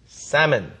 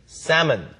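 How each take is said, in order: First: The L sound is silent. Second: The same.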